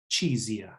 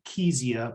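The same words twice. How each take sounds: First: The word starts with a 'ch' sound. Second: The word starts with a 'k' sound. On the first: This is the speaker's preferred way, tied to a memory aid. "I like to pronounce it chezia" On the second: This is how a colleague says it. "Lindsay pronounces it chezia"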